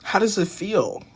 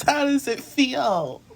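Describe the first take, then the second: First: Said in the usual way. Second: High, slow teasing repeat; mocking high voice. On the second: Mocking repeat, then laughs.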